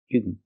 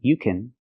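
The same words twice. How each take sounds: First: The word can has a reduced vowel. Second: The word can has a full vowel. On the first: "But she said, you can" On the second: "She didn't say you can, you can, which is fine"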